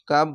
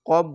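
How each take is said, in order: First: The vowel is an open 'aa' sound. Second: The vowel is a rounded 'o' sound. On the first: The speaker calls it wrong. "আমি ভুল করে বলেছিলাম" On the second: The speaker calls it right. "কাপ না বলে কব বলবেন"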